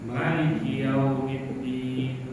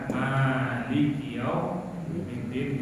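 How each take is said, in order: First: The first vowel of maliki is kept short. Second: The first vowel of maliki is held long. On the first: "bisa juga" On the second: "bisa dengan panjang"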